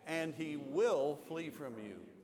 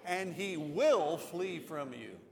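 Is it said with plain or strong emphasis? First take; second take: plain; strong. First: It is said with plain, ordinary emphasis. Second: It is said with strong, forceful emphasis.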